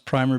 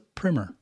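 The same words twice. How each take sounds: First: The word has the British and Canadian pronunciation. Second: The word has the American pronunciation. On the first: "I pronounce primer because I'm Canadian and I was actually born in England" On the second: "if you're in the U S, what I'm talking about is a primer"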